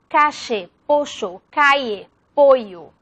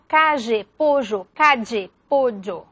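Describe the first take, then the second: First: "calle" as "cashe" and then as "caye"; "pollo" said "posho", then "poyo"; sh then y variants. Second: "calle" and "pollo" said with a zh sound, then dj; "calle" as "cazhe", "pollo" as "pozho"; yeísmo examples. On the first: Teacher repeats "calle" and "pollo" in other variants. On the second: Teacher gives yeísmo variants of "calle" and "pollo". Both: Shown as a demonstration. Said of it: "Por ejemplo".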